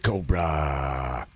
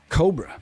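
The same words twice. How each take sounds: First: The final vowel is stretched out long. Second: The final vowel is short and plain. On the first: The speaker calls it right. "there's two A's, Cobra. Gotta say it like that" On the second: The speaker calls it wrong. "You can't just say"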